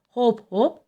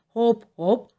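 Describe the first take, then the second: The two takes are said the same way.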